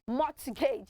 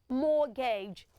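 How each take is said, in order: First: The T in the middle is pronounced. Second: The T in the middle is silent. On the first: The speaker calls it wrong. "if you want to go by the letters in that word, you pronounce it as mortgage" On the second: The speaker calls it right. "It is pronounced mortgage... So the T in that word is also what? Silent"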